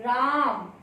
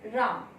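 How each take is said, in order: First: The vowel is drawn out, calling someone far away. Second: The name is called briefly, as to someone nearby.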